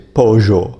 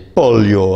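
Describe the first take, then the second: First: The middle consonant is a 'zh' sound. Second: The middle consonant is a 'y' sound. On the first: "In Argentina, we pronounce them je" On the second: "I don't say pollo"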